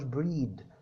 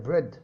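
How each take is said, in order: First: The vowel is a long stretched ee sound. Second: The vowel is a short e sound. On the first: The speaker calls it wrong. "ما بتنطقهاش بريد" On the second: The speaker calls it right. "لا هي بريد"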